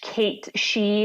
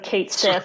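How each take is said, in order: First: The second word is said like 'shee'. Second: The second word is said like 'sith'. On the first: This is the Scottish way of saying it. "it's a Scottish Kate She" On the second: This is the American way of saying it. "we're American, so Kate Sith"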